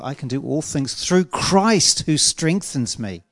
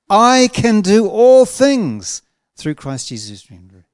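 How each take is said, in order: First: The stress is on the word Christ. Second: The stress is on the word I.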